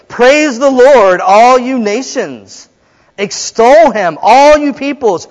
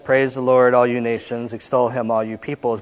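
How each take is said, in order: First: It is read in a lively, joyful way. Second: It is read in a flat, subdued way. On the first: The speaker calls it right. "But it's" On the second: The speaker calls it wrong. "So we could read it like this"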